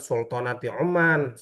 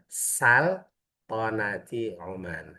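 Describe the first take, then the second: First: The first word starts with a 'u' vowel. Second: The first word starts with an 'a' vowel. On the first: The speaker calls it wrong. "Salah, bukan nyebutannya bukan Sultanati Oman" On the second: The speaker calls it right. "yang yang benar Saltanati Oman"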